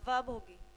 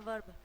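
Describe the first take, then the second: First: The r sound is silent in the word. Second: The r sound is pronounced in the word. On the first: "इसमें आर क्या होता है, silent होता है" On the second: "वैसे तो हम सिंपल इसको क्या कहते हैं बच्चों, वर्ब बोलते हैं"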